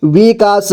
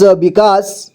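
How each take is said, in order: First: विकास as वि-का-स; syllable by syllable. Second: Said in the usual way. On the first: Shown as a demonstration. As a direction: sound out विकास in three parts. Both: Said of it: "एक ही बार में पढ़ेंगे".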